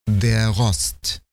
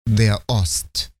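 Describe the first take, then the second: First: Ost links smoothly onto der without a stop. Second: Ost starts with a sharp glottal stop. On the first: It means rust. "без твердого приступа" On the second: It means east. "Слово «Ost» должно быть произнесено по правилу с твердым приступом"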